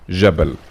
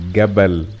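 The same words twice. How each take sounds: First: The word begins with a J sound. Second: The word begins with a hard G sound. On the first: This is the Standard Arabic form. "as explained in Fusha it will be" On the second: This is the Egyptian dialect form. "in Masri it's pronounced Gim ... Gim as in the word جبل"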